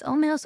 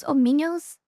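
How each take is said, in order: First: "ominous" stumbled as oh-muh-nose; a halting "ominous" with a long o; first try at ominous. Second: A rising, hesitant "ominous"; second try at ominous. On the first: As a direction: feel your way through "ominous". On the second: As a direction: stretch the end of "ominous" as you try again. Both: Shown as a demonstration. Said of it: "I, I tried".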